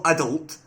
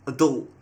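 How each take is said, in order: First: "adult" with a full first vowel, AD-ult; British pronunciation. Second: "adult" stressed on the last syllable, a-DULT; American pronunciation. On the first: Showing viewers what not to say, "adult" as AD-ult. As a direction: hit the first syllable of "adult". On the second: Showing viewers the American way, "adult" as a-DULT. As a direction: land hard on the end of "adult". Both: Shown as a demonstration. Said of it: "that's how they say it over in America".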